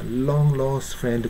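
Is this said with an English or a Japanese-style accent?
English. It is said with clear English L sounds. The speaker calls it right. "L が2 つありますね。"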